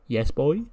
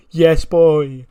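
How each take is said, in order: First: Mock-forlorn, rising call; sad distant call. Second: Loud, higher celebratory yell; triumphant reunion shout. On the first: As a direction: call out sadly, as if unsure anyone hears. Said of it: "We just hear a sad". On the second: Retold or imitated. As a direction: belt out the catchphrase to a long-lost partner. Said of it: "he opens his arms and he goes".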